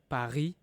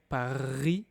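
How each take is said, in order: First: The R is a soft sound in the throat. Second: The R is rolled with the tongue. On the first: This is the everyday way to say it. "the most natural way is" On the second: This is an older, emphatic way to say it. "if I want to, I can say"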